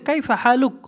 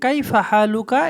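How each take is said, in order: First: The phrase ends without a final vowel. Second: The phrase ends with a final vowel.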